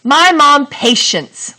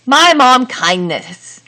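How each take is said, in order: First: Slow, higher, louder mock trial reading; testing a wrong sentence. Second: Slow, raised mock trial reading; testing a wrong sentence. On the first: Teacher tries a wrong sentence for the class, slow and raised. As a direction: say it out to show it doesn't work. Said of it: "but I can't say". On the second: Teacher tries another wrong sentence for students, slow and raised. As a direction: sound it out so it clearly fails. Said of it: "and I can't say". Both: Shown as a demonstration.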